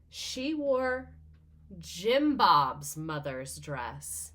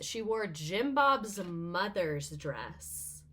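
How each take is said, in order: First: It is said slowly. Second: It is said at normal speed.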